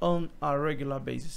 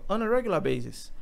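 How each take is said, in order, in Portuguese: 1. Cada palavra é dita separadamente e de forma distinta. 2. As palavras se juntam em um fluxo contínuo. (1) "ele não fala" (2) "elas são muito conectadas"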